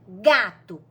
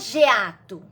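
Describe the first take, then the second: First: The first letter is read as a hard 'g'. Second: The first letter is read with its name 'gê'. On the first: The speaker calls it right. "a gente lê o quê? Gato" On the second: The speaker calls it wrong. "você não lê geato"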